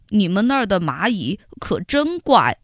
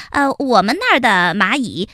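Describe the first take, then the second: First: Wondering ant. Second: Quick nervous little ant voice; flustered little ant. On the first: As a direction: muse on it in disbelief. Xiaoyi's take of the phrase. (小易将信将疑地说) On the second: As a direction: blurt it out, covering up. Heihei's take of the phrase. (黑黑慌忙编谎) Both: Acted.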